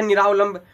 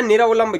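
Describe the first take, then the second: First: निरावलंब with long aa after r, "niraavlamb"; common mispronunciation. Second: निरावलंब with short a after r, "niravlamb"; corrected pronunciation. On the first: Teacher quoting the common mistake, निरावलंब with long raa. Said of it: "हम बोलते हैं वो गलत है". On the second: Teacher correcting the mistake, निरावलंब with short ra. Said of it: "वास्तव में होता है". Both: Shown as a demonstration.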